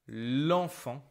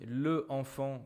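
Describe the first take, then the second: First: The vowel of le is dropped: lenfant. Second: Both vowels are pronounced, le then enfant. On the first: The speaker calls it right. "we just transform it into this generic L apostrophe" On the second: The speaker calls it wrong. "sounds a bit strange"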